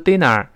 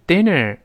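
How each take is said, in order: First: The ending is flat without tongue curl. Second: The ending has the tongue curled back. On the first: The speaker calls it wrong. "不要读dinner" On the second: The speaker calls it right. "是dinner 勾回来"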